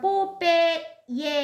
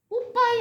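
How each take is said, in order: First: The middle vowel sounds like 'eh'. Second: The middle vowel sounds like 'ah'. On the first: This is the plain English reading of the name. "직역하면 그냥 발음하면" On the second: This is the name as known from local TV. "우리나라 저기 티비에 나오는 캐릭터 이름으로는"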